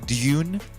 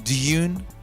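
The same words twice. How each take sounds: First: A y sound comes before the vowel. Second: The same.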